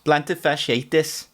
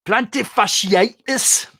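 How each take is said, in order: First: Slow Geordie "Plantar fasciitis" with a rise; Geordie accent. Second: Slow, higher, louder Geordie "Plantar fasciitis"; Geordie accent. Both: Shown as a demonstration. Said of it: "best word to say in a Geordie accent".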